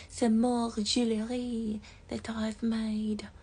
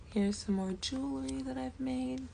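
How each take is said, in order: First: Slow, breathy mock French accent; a hammed-up French accent, slowly; attempted French accent. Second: Said in the usual way. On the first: Shown as a demonstration. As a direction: try it in a bad French accent. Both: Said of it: "that was not French".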